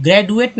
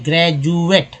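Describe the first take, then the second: First: ग्रेजुएट with a plain D, "gred-u-et"; higher-pitched ग्रेजुएट, D unsoftened as ड; wrong pronunciation. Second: ग्रेजुएट with D as J, "gre-joo-et"; correct pronunciation. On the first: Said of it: "ग्रेजुएट नहीं". (ग्रेजुएट को ड से, "ग्रेडुएट") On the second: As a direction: say ग्रेजुएट with a clear ज sound. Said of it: "डी को ज बोलते हैं". (ग्रेजुएट में डी की जगह ज) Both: Shown as a demonstration.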